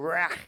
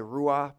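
First: The word has a throaty Hebrew-style ending. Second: The word has a soft, English-style ending. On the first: This is the authentic way of saying it. The speaker calls it right. "That's how you say it in the Hebrew" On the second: This is the speaker's habitual casual way of saying it. The speaker calls it wrong. "I like to say ruah"

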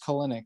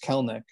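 First: The middle vowel is pronounced in the name. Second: The middle vowel is dropped from the name. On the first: The speaker calls it wrong. "I thought it was" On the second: The speaker calls it right. "that second E like, there is just doesn't exist when you pronounce it"

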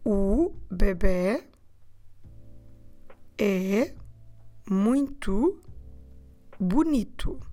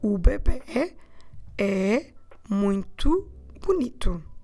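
First: It is said more slowly. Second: It is said at normal speed.

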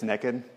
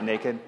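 First: It is said in a Southern accent. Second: It is said in a standard accent.

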